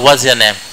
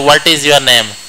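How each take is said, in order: First: The word 'is' is contracted to a z sound. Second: The word 'is' is said in full. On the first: The speaker calls it right. "वो लोग बोलते हैं ... वहाँ पे जेड का इस्तेमाल करते हैं" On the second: The speaker calls it wrong. "जैसे आप लोग इंग्लिश में नहीं बोलते"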